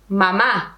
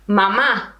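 The two takes are said the same way.

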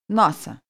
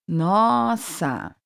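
First: It is said at natural fast speed. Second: It is said slowly, broken into parts.

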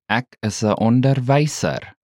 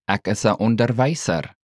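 First: It is said slowly. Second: It is said at normal speed.

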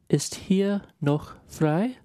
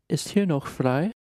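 First: It is spoken at a slow, careful pace. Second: It is spoken at a normal, quicker pace.

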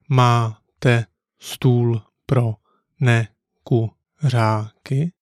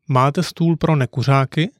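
First: It is said slowly and carefully. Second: It is said at a natural conversational speed. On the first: "Let's break it down" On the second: "Once more a natural speed"

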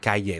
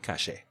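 First: The double L sounds like a y. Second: The double L sounds like sh. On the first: The speaker is from Mexico. "That's the way you say it in Mexico" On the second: The speaker is from Argentina. "people from Argentina obviously would say cache"

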